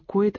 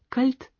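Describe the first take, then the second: First: The word sounds like 'koit', with no l. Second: The word sounds like 'kalt', with a clear l. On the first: "В Баварии многие просто не в состоянии произнести слово «койт» иначе как «койт»" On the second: "Вы говорите по-немецки, холодно будет не койт, а кальт?"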